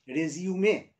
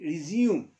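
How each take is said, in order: First: It is pronounced the way the noun is. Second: It is pronounced the way the verb is. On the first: A document listing one's career details. "If you talk about your CV, if you talk about your biodata, it means you must say" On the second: To begin or start again. "when you talk about a verb R-E-S-U-M-E, it means your pronunciation will be resume"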